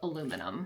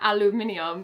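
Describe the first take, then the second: First: It is said the American way, four syllables. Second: It is said the British way, five syllables. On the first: The speaker calls it wrong. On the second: The speaker calls it right.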